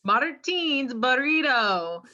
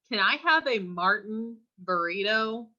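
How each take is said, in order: First: "Martín's" with stress on the last syllable, slow; Spanish pronunciation. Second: "Martin" said flat English way, MAR-tin; mispronounced Martin. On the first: Shown as a demonstration. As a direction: say "Martín's" the Spanish way, teen at the end. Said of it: "not, can I have a Martin burrito". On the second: Retold or imitated. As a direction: say "Martin" like the English name, not Spanish. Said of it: "It's Martín's".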